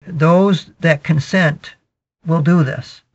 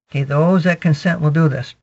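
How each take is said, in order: First: Drawn out slowly, word by word; slow emphatic. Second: Said in the usual way. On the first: Real, not acted. Preacher drawing out the key line slowly, emphatic. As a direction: lean on each word, slowly. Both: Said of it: "preacher repeats line for emphasis".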